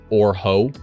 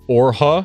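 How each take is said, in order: First: The name ends with an 'oh' vowel. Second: The name ends with an 'ah' vowel. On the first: The speaker calls it wrong. "I accidentally mispronounced it as Orho, which just sounds not good" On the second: The speaker calls it right. "I think is how it was supposed to be pronounced"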